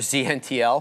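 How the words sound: The letter Z is said the American way.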